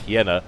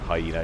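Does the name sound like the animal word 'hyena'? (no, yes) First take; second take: no; yes. First: It does not sound like the animal word. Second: It sounds like the animal word hyena. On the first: The speaker calls it right. "it's Hiena" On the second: The speaker calls it wrong. "that's of course not Hyena"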